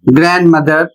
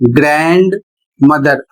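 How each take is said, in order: First: The d sound in grand is silent. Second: The d sound in grand is pronounced. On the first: The compound is said together in fast speech. "एक साथ बोलना चाहते हैं ... fast speech में डी silent हो जाता है" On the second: The two parts are read as separate words. "अलग अलग पढ़ते हैं तो इस तरीके से पढ़ सकते हैं"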